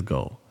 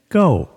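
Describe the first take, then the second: First: Sneaky quiet go. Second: High excited shout of go; loud. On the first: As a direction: slip the word out softly. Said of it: "then she says". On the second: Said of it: "she's like". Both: Retold or imitated.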